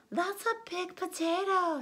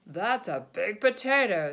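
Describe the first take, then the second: First: Higher wife voice. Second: Farmer voice. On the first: The wife echoes the farmer, higher voice. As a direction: lift it up as the wife. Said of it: "said the wife". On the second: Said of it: "said the farmer". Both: Acted.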